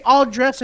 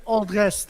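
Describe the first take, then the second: First: "all dress" ending on a plain s; no final t. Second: "all dress" closed with a t, as dressed; final t sounded. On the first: Arguing over how to order pizza, "all dress" without final t. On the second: Arguing over how to order pizza, "all dress" ending in t. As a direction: say "all dress" with a t added at the end. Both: Shown as a demonstration. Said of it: "what's the difference if you say".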